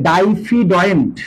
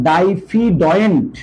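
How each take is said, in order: No difference in how they are said.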